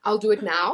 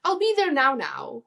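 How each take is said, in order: First: Said in the usual way. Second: "now" doubled, first high and loud; emphatic now. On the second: Shown as a demonstration. Explaining South African phrases, an insistent repeated now. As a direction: lift "I'll be there now" high then drop "now". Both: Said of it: "three different types of phrases".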